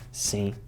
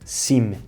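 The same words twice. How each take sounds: First: It ends with a nasal vowel, no M closure. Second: It ends with a closed M consonant sound. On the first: The speaker calls it right. "faz um som nasal" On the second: The speaker calls it wrong. "não se pronunciam sim"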